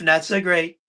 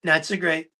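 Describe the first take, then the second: No difference in how they are said.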